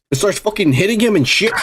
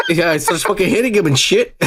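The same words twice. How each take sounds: First: Laughing through it. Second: Said in the usual way. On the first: Real, not acted. Laughs while retelling fight.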